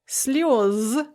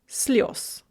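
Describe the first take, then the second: First: The final consonant is voiced. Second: The final consonant is voiceless.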